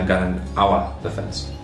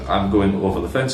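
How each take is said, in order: First: The word 'over' is pronounced as 'awa'. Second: The word 'over' has its standard pronunciation.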